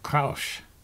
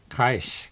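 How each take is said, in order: First: The vowel sounds like oo. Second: The vowel sounds like eye. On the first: The speaker calls it wrong. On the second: The speaker calls it right.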